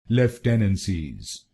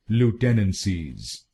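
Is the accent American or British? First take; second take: British; American. First: It is said with a British accent. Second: It is said with an American accent.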